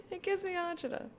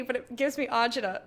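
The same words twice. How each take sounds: First: High squeaky repeat. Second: Said in the usual way. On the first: Real, not acted.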